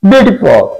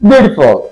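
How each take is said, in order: No difference in how they are said.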